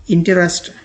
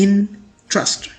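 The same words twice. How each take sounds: First: इंटरेस्ट as three syllables, "in-te-rest"; wrong pronunciation. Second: इंटरेस्ट as two syllables, "IN ... trust"; correct pronunciation. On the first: Teacher shows how people misread it, wrong pronunciation. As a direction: say इंटरेस्ट with every vowel full. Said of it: "गलत pronounce हो जाता है". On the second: Teacher corrects the word for learners, correct pronunciation. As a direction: say इंटरेस्ट split after "in", light second vowel. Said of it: "correct pronunciation कुछ इस तरह से होती है". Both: Shown as a demonstration.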